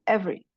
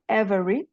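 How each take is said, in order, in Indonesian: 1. Vokal tengahnya dihilangkan, jadi dua suku kata. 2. Vokal tengahnya diucapkan, jadi tiga suku kata. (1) "E-nya hilang yang di tengah-tengah"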